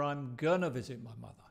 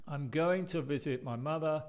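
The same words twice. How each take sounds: First: "gonna" as a quick kʌnə, a bit faster. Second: Said in the usual way. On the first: Shown as a demonstration. Teacher repeats the casual reduced form for students. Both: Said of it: "con las dos diferentes formas".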